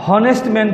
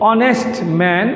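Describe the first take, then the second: First: হনেস্ট with a voiced h at the start; the teacher shows the wrong way; wrong h sound. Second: অনেস্ট said with no h, starting on the vowel; the teacher's correct silent h. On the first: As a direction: say হনেস্ট with the h, as the mistake. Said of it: "বলা যাবে না". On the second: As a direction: say অনেস্ট as "onest". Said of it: "এটা হচ্ছে". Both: Shown as a demonstration.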